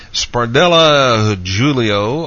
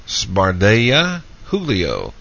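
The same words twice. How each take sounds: First: Julio with an English-style J, Spardella with sounded L's; Portuguese pronunciation. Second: Julio with an H sound, Spardella's double L as a Y; Spanish pronunciation. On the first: Host trying out a listener's name, Julio with a J sound. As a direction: say Spardella as "spar-DELL-a", Julio as "JOO-lee-oh". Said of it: "with the Portuguese pronunciation". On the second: Host trying out a listener's name, Julio with an H sound. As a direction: say Spardella as "spar-DAY-a", Julio as "HOO-lee-oh". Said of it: "with the Spanish pronunciation". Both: Shown as a demonstration.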